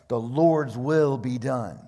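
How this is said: It is said in a convinced tone. The speakers truly accept it. "Or it could be conviction"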